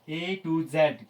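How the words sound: The last letter is pronounced zed. This is the British and Indian usage. "It's pronunciation is जेड"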